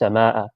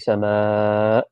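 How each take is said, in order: First: The vowel is kept short. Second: The vowel is drawn out long. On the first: This is the plain Arabic word. "Without without the mud on it" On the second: This is how it is recited in the Quran. "this would be a mud. So you say sama, right, with with a little one of these"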